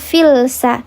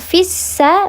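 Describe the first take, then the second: First: The L is pronounced clearly before the S. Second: The L is merged into a doubled S. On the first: The speaker calls it wrong. "bukan filsa" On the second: The speaker calls it right. "dileburkan fissa"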